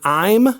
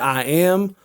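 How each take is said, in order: First: It is said shortened. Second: It is said in full. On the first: "Instead of saying I'm" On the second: "extend the length of a word or phrase"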